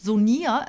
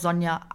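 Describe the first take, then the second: First: The name is said with an unusual pronunciation. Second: The name is said with the ordinary pronunciation. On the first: The speaker calls it wrong. "ich heiße nicht Sonia" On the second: The speaker calls it right. "es wird ganz normal ausgesprochen"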